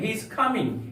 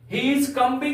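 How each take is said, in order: First: The b sound is silent in combing. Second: A b sound is pronounced in combing. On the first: The speaker calls it right. "यहां पर बी silent" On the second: The speaker calls it wrong. "He is कमिंग नहीं बोलेंगे"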